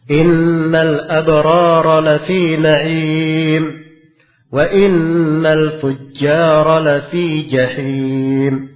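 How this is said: A pause separates the two halves. The righteous and the wicked are kept as two separate statements. The speaker calls it right. "Nah itu enaknya kalau dibaca, dipisah"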